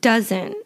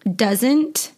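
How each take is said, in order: First: The final T sound is left off. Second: The final T sound is clearly pronounced. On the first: "I do not pronounce the T at the end of words in my natural everyday speaking" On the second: "Some American accents pronounce the T"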